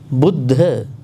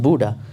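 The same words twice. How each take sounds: First: It is said with a Pali pronunciation. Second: It is said with a Western pronunciation. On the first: The speaker calls it right. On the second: The speaker calls it wrong.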